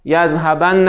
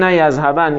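First: "یذهبن" ending in a doubled, held n plus short a; heavy emphatic nun. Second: "یذهبن" closed on a single unvowelled n; light emphatic nun. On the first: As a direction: say "یذهبن" as yazhabanna, leaning on the double n. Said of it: "صرف کنید هم به ثقیله". («یذهبن» با نون مشدد و مفتوح) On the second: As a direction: say "یذهبن" as yazhaban, stopping on the n. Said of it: "هم به خفیف". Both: Shown as a demonstration.

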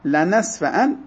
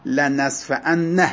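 First: «لنصفعن» ended on a short, single, undoubled nun; single light nun. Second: «لنصفعن» said slowly, its final nun held long as a doubled nun; wrong doubled nun. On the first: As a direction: close «لنصفعن» with one quick nun and no doubling. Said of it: "بدون تشدید". («لنصفعن» بدون تشدید، با نون ساکن و کوتاه) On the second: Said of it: "نمیگه". («لنصفعن» با نون مشدد، تلفظ نادرست) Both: Shown as a demonstration.

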